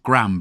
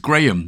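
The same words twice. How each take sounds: First: It is said the American way. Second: It is said the British way.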